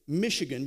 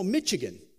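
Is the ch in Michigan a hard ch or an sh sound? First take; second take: sh; hard ch. First: The ch is said as a soft sh sound. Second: The ch is said as a hard ch sound.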